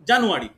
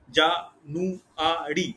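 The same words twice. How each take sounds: First: Said in the usual way. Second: জা-নু-আ-রি slowly, one syllable at a time; four separate beats in জা-নু-আ-রি; split into syllables. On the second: Shown as a demonstration. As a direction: count out জা-নু-আ-রি syllable by syllable. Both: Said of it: "তাহলে কটা ভাঙতে পারছি?".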